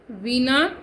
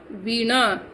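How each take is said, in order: First: वीणा said veena with a plain n, rising; wrong pronunciation. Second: वीणा said with a retroflex ण, falling; correct pronunciation. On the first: Teacher shows pupils the wrong dental n form. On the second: Teacher gives pupils the correct retroflex form. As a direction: curl the tongue back for ण in वीणा. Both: Shown as a demonstration. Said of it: "wrong then right pairs".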